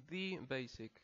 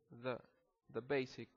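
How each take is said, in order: First: "the basic" with "the" stressed and lengthened; emphatic the. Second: "the basic" with a quick, reduced "the"; quick weak the. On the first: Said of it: "que querramos enfatizar". ("the basic" con "the" enfatizado) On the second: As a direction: rush the "the" into "basic". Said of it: "se pronuncia rápido". ("the basic" con "the" rápido y reducido) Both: Shown as a demonstration.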